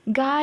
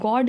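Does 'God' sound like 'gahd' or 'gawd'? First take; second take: gahd; gawd. First: The vowel is open and unrounded, like gahd. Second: The vowel is rounded, like gawd. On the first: "गार ही निकलता है" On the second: "गॉड निकलता ही नहीं है मेरे मुँह से"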